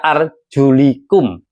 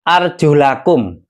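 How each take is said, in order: First: The vowel before -kum is an 'i'. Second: The vowel before -kum is an 'a'. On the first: The feet may be wiped. "ada yang dibaca jer" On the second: The feet are to be washed. "di sini dibaca nasab"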